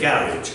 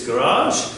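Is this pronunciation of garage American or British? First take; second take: British; American. First: It is said in a British accent. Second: It is said in an American accent. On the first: "in Britain we tend to say garage" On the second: "in American English it's garage"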